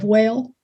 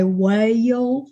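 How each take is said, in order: First: Said in the usual way. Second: "whale" drawled into three syllables; "whale" pulled out like a mile-long Alabama well. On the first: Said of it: "instead of". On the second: Shown as a demonstration. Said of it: "And they drawl it out".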